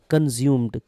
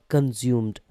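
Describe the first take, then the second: No difference in how they are said.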